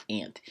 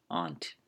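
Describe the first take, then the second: First: "aunt" said like the insect ant; ant pronunciation. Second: "Aunt" said ahnt, with a broad ah; ahnt pronunciation. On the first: Podcaster quoting how some people say it, "aunt" as ant. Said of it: "Some people say aunt". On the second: Podcaster showing how they said it, "Aunt" as ahnt. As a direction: say "Aunt" to rhyme with font. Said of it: "I said it". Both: Shown as a demonstration.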